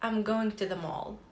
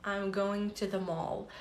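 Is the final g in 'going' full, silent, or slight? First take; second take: slight; slight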